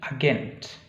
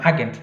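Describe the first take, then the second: First: The stress is on the last syllable. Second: The stress is on the first syllable. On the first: The speaker calls it right. "biasanya ditekan di suku kata paling terakhir" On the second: The speaker calls it wrong. "bukan agent"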